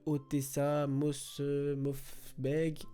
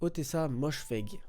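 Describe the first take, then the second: First: The surname comes out garbled, without a clear 'sh'. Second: The surname is said smoothly with a clear 'sh'. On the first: The speaker calls it wrong. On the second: The speaker calls it right. "Je crois que ça se dit comme ça"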